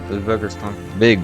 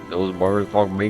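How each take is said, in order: First: It is read in the reader's own accent. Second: It is read in an attempted Australian accent. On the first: "I can't do Australian accent anymore" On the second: "I'm guessing he's Australian"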